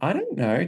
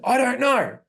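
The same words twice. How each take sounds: First: It sounds cute, rising at the end. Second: It sounds aggressive, with big energy.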